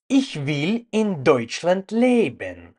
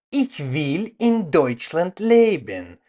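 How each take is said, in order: Both takes have the same delivery.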